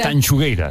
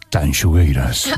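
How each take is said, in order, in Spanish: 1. El nombre se dice con voz sencilla. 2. El nombre se dice con voz seductora. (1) "Ahí está, ahora, perfecto" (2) "Casi sexy ahí con todo"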